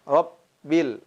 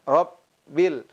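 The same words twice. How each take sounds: First: The B is short and light. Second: The same.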